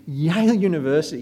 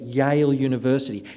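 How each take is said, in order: First: Higher, impressed repeat of the name; impressed echo. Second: Said in the usual way. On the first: Retold or imitated. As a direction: echo it as an awed listener would. Imitates own impressed reaction to introduction.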